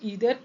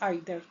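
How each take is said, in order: First: The first vowel sounds like 'ee'. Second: The first vowel sounds like 'eye'. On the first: "कहीं पे इसको ईदर pronounce करते हैं" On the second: "और कहीं पे आइदर"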